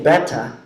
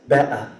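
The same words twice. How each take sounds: First: The middle T sound is clearly pronounced. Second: The middle T sound is dropped entirely. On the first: "instead of saying" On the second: "There's no T, there's no R"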